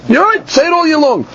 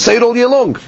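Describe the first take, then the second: First: Much higher, keen "you're right"; excited concession; eager agreement. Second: Said in the usual way. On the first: Retold or imitated. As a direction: concede it with a lift of enthusiasm. Acting out Rebbe Eliezer agreeing.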